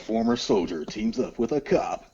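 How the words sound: It is read in a dramatic movie-trailer voice. The speaker calls it right.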